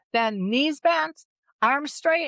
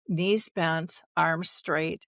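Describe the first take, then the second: First: Slow, higher "knees bent, arms straight" like a ski instructor; water ski coach. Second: Said in the usual way. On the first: Retold or imitated. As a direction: call the drill to the skier. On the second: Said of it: "my dad taught us all to water ski".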